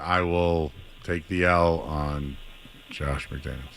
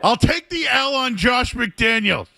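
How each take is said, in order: First: It is said quietly. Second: It is said loudly. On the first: "I was quiet" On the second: "say it louder"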